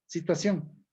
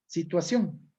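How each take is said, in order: The two takes are said the same way.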